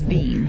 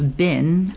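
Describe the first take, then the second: First: The word has a long vowel, like 'bean'. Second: The word has a short vowel, like 'bin'. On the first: This is the upper-class period pronunciation. "Was bean" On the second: This is the everyday modern pronunciation. "the common word that we pronounce as bin"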